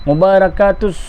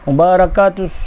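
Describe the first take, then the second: Both takes have the same delivery.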